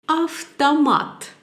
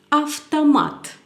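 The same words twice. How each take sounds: First: Автомат said slowly, a-fta-MAT, pitched higher; slow Russian word. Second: Автомат repeated slowly, aftaMAT, pitched higher; slow Russian word. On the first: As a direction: spell out Автомат slowly, stressing the last syllable. (Автомат lentement, aftaMAT) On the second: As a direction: model Автомат again, slow and clear. (Автомат lentement, accent final) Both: Shown as a demonstration. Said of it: "voici un plus long mot".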